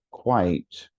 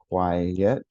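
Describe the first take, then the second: First: "quite" as one falling syllable. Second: "quiet" as kwai-yet, rising on the second beat; two-syllable QUIET. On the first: Teacher shows what students would have noticed, one-syllable "quite". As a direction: say "quite" in one beat, vowel gliding into t. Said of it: "has one". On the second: Teacher shows what students would have noticed, two-syllable "quiet". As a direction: break "quiet" into two clear syllables, ending up. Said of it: "has two syllables". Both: Shown as a demonstration.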